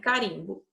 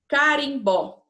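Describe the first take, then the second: First: The stress is on the second-to-last syllable. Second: The stress is on the last syllable. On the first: The speaker calls it right. "então é carimbo" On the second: The speaker calls it wrong. "desculpa, não tem acento no O"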